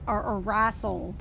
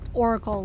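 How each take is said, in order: First: The middle consonant is an S sound. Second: The middle consonant is a K sound. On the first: The speaker calls it wrong. "the funniest pronunciation of my username was Arassel" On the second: The speaker calls it right. "no, it's just Oracle, like the Oracle"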